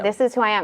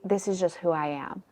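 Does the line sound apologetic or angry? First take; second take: angry; apologetic. First: It sounds sharp and angry. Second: It sounds soft and apologetic.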